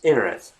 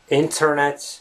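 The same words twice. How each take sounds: First: The T sound after the N is dropped. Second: The T sound after the N is pronounced. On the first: The speaker calls it right. "the T sound, tends to all but disappear" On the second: The speaker calls it wrong. "it's not the internet"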